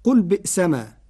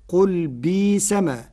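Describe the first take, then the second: First: بئسما with the hamza, bi'sama; Hafs reading. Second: بيسما as bisama with long i; بيسما, no hamza; Warsh reading. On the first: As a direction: keep the glottal stop in بئسما. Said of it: "قرأ ورش كلمة "بئسما". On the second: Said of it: "بإبدال الهمز حرف مد". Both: Shown as a demonstration.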